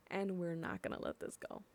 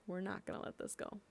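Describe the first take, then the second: First: Said in the usual way. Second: Softer and faster, almost under the breath; quiet, quick repeat. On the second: Real, not acted. Community voice vowing to officials, muttered quickly. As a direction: mutter it fast like a vow to yourself.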